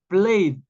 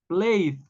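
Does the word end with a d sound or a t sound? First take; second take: d; d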